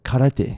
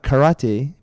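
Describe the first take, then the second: First: The r sounds close to an L. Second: The r sounds like an English r. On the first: The speaker calls it right. "R's in Japanese ... are pronounced as L's" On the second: The speaker calls it wrong. "it's not karate"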